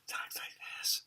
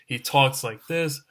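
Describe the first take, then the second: First: It is said in the dog's creepy whisper-like voice. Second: It is said in his normal speaking voice.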